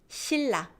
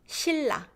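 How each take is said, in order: First: The n sound turns into an l sound. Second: The n sound turns into an l sound.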